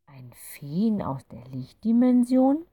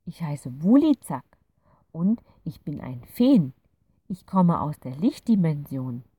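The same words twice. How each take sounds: First: Slow, hushed, rising doubt; can't quite believe what she hears; disbelieving. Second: Louder, lightly voiced fairy introducing itself; a kind little creature saying hello; friendly fairy. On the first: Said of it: "Clara etwas ungläubig". (ungläubig, langsam und gehaucht nachgefragt) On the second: Fairy character voice. (freundliche kleine Fee, leicht gespielt) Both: A narrator's reading.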